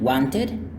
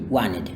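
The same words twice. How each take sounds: First: The T after the N is clearly pronounced. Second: The T after the N is dropped. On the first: "instead of saying wanted" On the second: "they say wanted"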